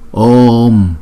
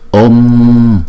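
First: The vowel is held long before closing. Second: The vowel is short and closes quickly. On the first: The speaker calls it right. "chúng ta phải đọc chữ O kéo dài hai nhịp trước, rồi chúng ta mới đóng chữ O lại sau" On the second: The speaker calls it wrong. "Chứ chúng ta đừng đọc là Om"

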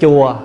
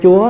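First: The word is said with a low falling tone. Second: The word is said with a high rising tone. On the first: It means the temple. "là dấu huyền" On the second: It means the Lord. "là dấu sắc"

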